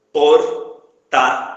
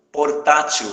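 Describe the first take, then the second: First: "Portátil" in three loud, separate syllables, "por, tá, til"; very slow "Portátil", a pause after each syllable; split into syllables. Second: Said in the usual way. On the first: Shown as a demonstration. Teacher breaking down the word for the class, loud syllable by syllable.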